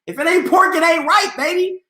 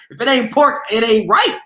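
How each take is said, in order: First: Put-on high playful sing-song "If it ain't pork, it ain't right, baby". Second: Said in the usual way. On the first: Shown as a demonstration.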